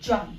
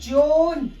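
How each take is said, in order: First: The vowel is a short open 'aw' sound. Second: The vowel is a long rounded 'oh' sound. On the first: The speaker calls it right. "ये क्या है" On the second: The speaker calls it wrong. "जोन नहीं है guys"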